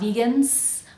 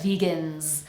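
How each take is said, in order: First: The word ends with a hissing s sound. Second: The word ends with a buzzing z sound. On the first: The speaker calls it wrong. "not vegans" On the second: The speaker calls it right. "Make sure that's a vibrating z sound"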